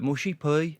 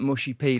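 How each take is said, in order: First: Brummie vowel stretched into a diphthong on "pea"; Birmingham accent. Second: Said in the usual way. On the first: Shown as a demonstration. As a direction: say it in broad Brummie. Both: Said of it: "like, Birmingham is".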